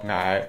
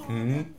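First: The word is pronounced like 'ai'. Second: The word is pronounced like 'ng'. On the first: This is how the speaker's home area says fish. "我家那边叫鱼叫矮" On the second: This is how a nearby place says fish. "离我家很近的大概两三公里的地方他们就叫嗯"

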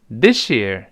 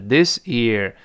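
First: Said fast, with the s turned into sh. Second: Said slowly, with a plain s sound. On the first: "读快了之后变成跟老师读起来this year" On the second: "慢慢读还是this year"

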